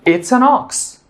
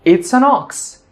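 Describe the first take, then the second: Both takes have the same delivery.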